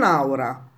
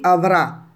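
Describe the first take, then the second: First: A u vowel follows the first a. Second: A clear v sound follows the first a. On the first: The speaker calls it wrong. "non aura, aura non è niente" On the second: The speaker calls it right. "Quindi avrà"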